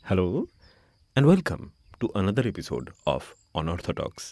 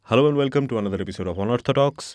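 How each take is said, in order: First: The phrase is said slowly. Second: The phrase is said very quickly. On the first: "তাই ধীরে ধীরে একবার বলি।" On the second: "আমি কথাটা এত তাড়াতাড়ি বলি"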